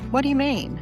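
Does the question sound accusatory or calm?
calm. The question is asked in a calm, neutral tone. A genuine request for clarification. "instead of saying"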